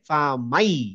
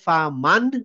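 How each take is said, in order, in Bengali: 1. n বাদ পড়ে যায় এবং y দ্বিগুণ হয়ে যায়। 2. n ধ্বনিটি স্পষ্টভাবে উচ্চারণ করা হয়। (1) "মানে ইয়ার উপরে সাদ্দা হয়ে যাবে" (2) "ফা মান না বলে"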